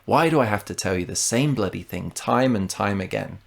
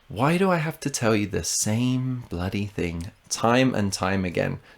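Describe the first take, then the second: First: The sentence is spoken at full natural speed. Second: The sentence is spoken at a slower pace.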